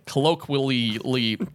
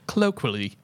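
First: It is said in his usual American accent. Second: It is said in an English accent.

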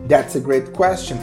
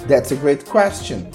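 No difference in how they are said.

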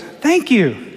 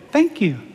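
First: It is said more loudly. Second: It is said quietly, in a small voice.

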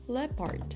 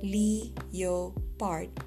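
First: The word has its usual native pronunciation. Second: The word is pronounced as it is spelled. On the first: "for leopard" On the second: "spelling pronunciations are common, such as leopard"

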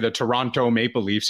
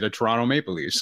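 First: The second T in 'Toronto' is clearly pronounced. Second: The second T in 'Toronto' is dropped. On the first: The speaker calls it wrong. "you don't say" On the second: The speaker calls it right. "you say"

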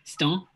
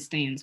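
First: It is said in a put-on French accent. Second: It is said in a plain English accent.

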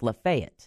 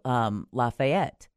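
First: It is said the local county way. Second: It is said the common, familiar way. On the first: This is how the Florida county is said. "but it's pronounced Lafayette" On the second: This is the name as usually known elsewhere. "spelled just like Lafayette"

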